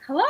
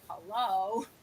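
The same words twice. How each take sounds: First: It sounds eager and happy to answer. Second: It sounds reluctant and unwilling to answer.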